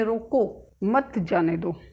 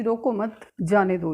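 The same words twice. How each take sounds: First: रोको, a clear stop, then मत जाने दो slowly; pause after रोको. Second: रोको मत together, a short break, then जाने दो; pause after मत. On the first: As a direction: break the phrase between रोको and मत. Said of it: "इसमें कहा गया है कि रोको". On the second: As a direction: break the phrase between मत and जाने. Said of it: "इसमें कह रहा है कि". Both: Shown as a demonstration.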